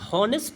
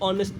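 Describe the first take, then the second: First: The word begins with an audible h sound. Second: The word begins directly with a vowel sound. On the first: The speaker calls it wrong. "इसको ऑन हॉनेस्ट नहीं पढ़ते" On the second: The speaker calls it right. "इसको ऑनेस्ट पढ़ते हैं"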